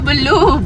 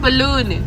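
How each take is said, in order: First: The word ends in a plain u vowel. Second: The word ends with a clear n sound. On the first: The speaker calls it wrong. "नहीं है बल्लू बल्लू" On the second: The speaker calls it right. "बलून बेटा बलून"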